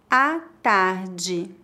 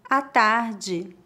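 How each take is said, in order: First: It is spoken slowly and carefully. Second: It is spoken at a natural pace. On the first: "Uma vez mais devagar" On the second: "2 vezes mais naturalmente"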